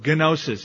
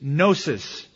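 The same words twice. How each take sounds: First: The word starts with a hard g sound. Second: The word starts with a plain n sound. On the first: The speaker calls it wrong. "if you wanted to mispronounce it" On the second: The speaker calls it right. "the word for knowledge in Greek is gnosis"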